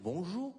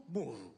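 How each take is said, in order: First: "bonjour" higher, rising at the end; testing "bonjour" with an upward lilt; questioning bonjour. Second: "Bonjour" dropping at the end; unraised "Bonjour", falling away. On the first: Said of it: "What the hell does that sound like". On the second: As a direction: settle "Bonjour" with a downward tune. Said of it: "You'll never know what you sound like". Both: Shown as a demonstration.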